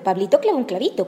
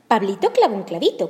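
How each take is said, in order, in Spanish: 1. Se dice al ritmo más rápido. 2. Se dice a un ritmo más rápido. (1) "Más rápido" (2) "tratemos de decirlo más rápido"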